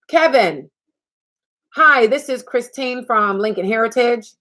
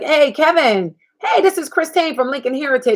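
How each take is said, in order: First: There is a pause after the introduction. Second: It goes straight on without a pause.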